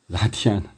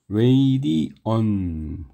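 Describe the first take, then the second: First: The first vowel sounds like 'ah'. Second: The first vowel sounds like 'ay'. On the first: The speaker calls it wrong. "아무리 콩글리시라도 그거는 선을 넘었어" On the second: The speaker calls it right. "이게 이제 원래 발음이고"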